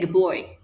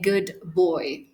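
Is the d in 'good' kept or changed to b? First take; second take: changed; kept. First: The d at the end of good becomes b. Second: The d at the end of good is kept. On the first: The speaker calls it right. "I'm just going to say good boy" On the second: The speaker calls it wrong. "I'm not going to say good boy"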